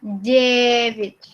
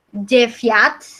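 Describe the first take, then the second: First: The second vowel sounds like i. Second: The second vowel sounds like ya. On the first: The speaker calls it right. "dibacanya jadi uh, i" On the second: The speaker calls it wrong. "bukan Jeviat, bukan"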